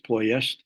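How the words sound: The name has a Romanian pronunciation. "the Romanians would pronounce it as"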